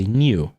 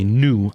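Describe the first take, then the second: First: "new" said nyoo, with a glide; British-style new. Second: "new" said noo, without a glide; American-style new. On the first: Defending own pronunciation, British-style "new". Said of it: "like, the British way of saying it". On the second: Recalling the friend's objection, American-style "new". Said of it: "new is the American way of saying it". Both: Shown as a demonstration.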